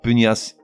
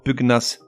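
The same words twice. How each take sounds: First: The g and n merge into one 'ny' sound. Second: The g and n are pronounced as separate sounds. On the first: The speaker calls it wrong. "et non pas" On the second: The speaker calls it right. "se prononcent avec le G séparé du N"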